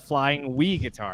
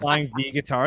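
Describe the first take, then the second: First: The letter starts with a W sound. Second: The letter starts with a V sound. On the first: "it's a flying we guitar" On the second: "it's not a flying V guitar"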